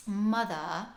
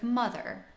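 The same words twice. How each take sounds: First: BBC period drama R-less Mother; non-rhotic mother. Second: "mother" with a hard R at the end; American R on mother; rhotic mother. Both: Shown as a demonstration. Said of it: "Mother instead of mother".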